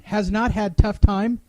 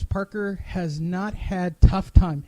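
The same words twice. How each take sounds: First: Questioning rise on "not"; incredulous reread. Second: Said in the usual way. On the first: Shown as a demonstration. Host rereading to Andrew, stunned and questioning. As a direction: repeat it in disbelief, rising at the end. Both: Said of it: "I shit you not".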